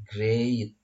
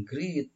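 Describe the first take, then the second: First: "great" drawn out slowly, gliding from e to i; slow "great" with a clear ey vowel; great with ey glide. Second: "great" said as "greet", long ee; wrong vowel, ee in "great"; mispronounced great. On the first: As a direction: say "great" as "grayt". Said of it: "Dari E ke I". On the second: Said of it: "dibacanya jangan great". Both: Shown as a demonstration.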